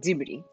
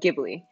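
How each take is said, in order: First: The word begins with a J-like sound. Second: The word begins with a hard G sound.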